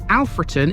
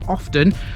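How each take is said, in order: First: The full name is said in standard form. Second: The name is clipped to a short form. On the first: The speaker calls it right. "Alfreton is the correct way to pronounce it" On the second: The speaker calls it wrong. "or even the shortened version"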